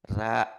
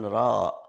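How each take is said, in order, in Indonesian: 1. Bunyi r tipis dengan vokal a yang terang. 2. Bunyi r tebal dengan vokal o yang membulat. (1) "ini tarqiq" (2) "jangan ro"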